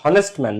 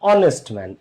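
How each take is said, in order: First: The word starts with an audible h sound. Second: The word starts with a vowel, no h. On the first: The speaker calls it wrong. "হনেস্ট man না" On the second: The speaker calls it right. "এটাকে কেউ হনেস্ট বলে না"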